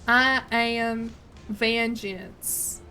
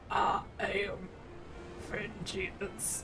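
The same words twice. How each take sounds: First: It is a Southern voice without Batman gravel. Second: It is a gravelly Batman voice, Southern too.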